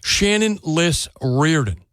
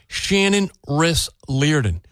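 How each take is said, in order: First: Liss Reardon, slowly, L first and then R; careful slow "Liss Reardon", L and R in place; corrected name. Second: Riss Leardon, with R and L swapped; tongue-tied name, "Riss Leardon" with swapped first sounds; slip of the tongue. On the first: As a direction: say "Liss Reardon" slowly and deliberately, both surnames distinct. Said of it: "Emphasis on the hyphen". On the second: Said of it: "No, I'm sorry". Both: Real, not acted.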